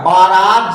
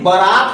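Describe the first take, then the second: First: बारात with a long first aa; common mispronunciation. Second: बारात with a short first vowel; corrected pronunciation. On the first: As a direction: say बारात as "baa-raat". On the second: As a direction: say बारात as "ba-raat". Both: Shown as a demonstration. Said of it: "लेकिन बारात होता है".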